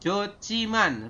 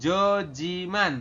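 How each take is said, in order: First: The second syllable starts with a sharp ch. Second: The second syllable starts with a soft j. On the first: The speaker calls it right. "Ini dibacanya jadi Ci" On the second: The speaker calls it wrong. "jadi dibacanya bukan Jojiman"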